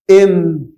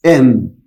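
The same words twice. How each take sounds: First: "ام" said with a clear "e" sound before the M; model pronunciation. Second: "ام" said lower, with the opening "e" before the M held clearly; model pronunciation again. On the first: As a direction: start "ام" with an "e" sound, then the M. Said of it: "انطق كده معايا". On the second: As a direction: open "ام" on a low "e" and land on the M. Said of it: "كانك قلت كده ايه". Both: Shown as a demonstration.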